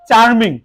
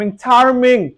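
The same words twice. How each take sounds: First: Said in the usual way. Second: Charming slowly broken as "char, ming"; split into syllables. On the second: Shown as a demonstration. Teacher breaking the next word, charming split as "char, ming". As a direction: say charming in two separate parts, char and ming. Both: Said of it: "উচ্চারণ করতে গেলে আমাদেরকে একটু ভাঙতে হয়".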